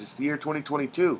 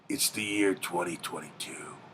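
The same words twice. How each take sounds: First: It is read in his normal voice. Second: It is read in a movie-announcer voice.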